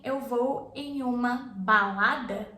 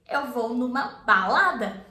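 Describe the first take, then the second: First: The words em uma are said separately in full. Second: The words em uma merge into numa. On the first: "Instead of you saying" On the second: "you say"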